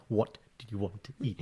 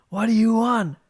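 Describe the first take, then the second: First: Quiet, gentle ask, rising at the end; husband showing his patient question to his wife, soft. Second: High-pitched, louder mock question; imitating the guy in the meme asking his girlfriend, high mock. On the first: Retold or imitated. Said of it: "This is my". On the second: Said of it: "basically it's like".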